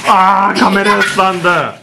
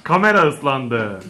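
First: Laughing shout. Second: Softer, lower and slow, half to himself; quiet repeat. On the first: Dad to kids who splashed the camera, laughing shout. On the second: Dad repeating to himself about the wet camera, quiet. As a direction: mutter it again, deflated. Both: Real, not acted.

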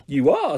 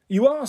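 First: Understated, downward-ending reply; falling echo. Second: High, rising astonishment; incredulous, voice lifting at the end; surprised. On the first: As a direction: echo it at usual pitch, falling at the end. Ryan echoes her, more deflated. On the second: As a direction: query it in high-pitched surprise. Diona reacts to surprise offer. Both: A narrator's reading.

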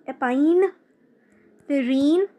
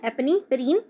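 First: "एपाइनफ्रिन" very slow and careful, opening with "एपाइन"; corrected pronunciation. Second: "एपनीफ्रिन" said with "एपनी" at the start, the form she then rejects; wrong first try. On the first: Teacher gives students the corrected "एपाइनफ्रिन", slowly and carefully. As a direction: stretch out "एपाइनफ्रिन", opening with "एपाइन" and not "एपनी". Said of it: "एपाइन बोलेंगे हम लोग". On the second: Teacher's first, wrong try at epinephrine for students. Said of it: "एपनी नहीं". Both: Shown as a demonstration.

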